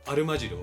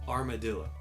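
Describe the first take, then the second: First: It is said with Japanese sounds. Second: It is said with English sounds. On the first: The speaker calls it wrong. "And not armadillo" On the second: The speaker calls it right. "but armadillo"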